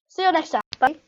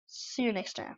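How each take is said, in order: First: Bright, raised, quick goodbye; upbeat sign-off. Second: Soft sign-off. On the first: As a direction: toss off a cheery outro. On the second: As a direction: say a settled, gentle farewell. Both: Shown as a demonstration. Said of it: "the correct bye".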